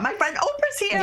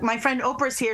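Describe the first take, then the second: First: The voice rises to a high, excited pitch. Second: The voice stays at a normal, lower pitch. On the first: The speaker feels less powerful than the person arriving. "I'm going to be like, oh, my God" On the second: The speaker feels equal to the person arriving. "am I going to say, hey, D B L"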